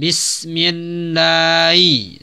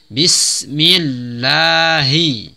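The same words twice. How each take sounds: First: The h sound is barely pronounced. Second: The h sound is clearly pronounced. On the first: The speaker calls it wrong. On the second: The speaker calls it right.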